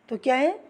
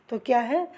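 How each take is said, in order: No difference in how they are said.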